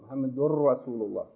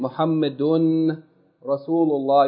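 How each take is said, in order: First: The n sound merges fully into the r. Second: A clear n sound is heard before the r. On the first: The speaker calls it right. "The noon is merged. So you say Muhammadur Rasulullah" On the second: The speaker calls it wrong. "instead of saying Muhammadun Rasulullah, you don't say Muhammadun"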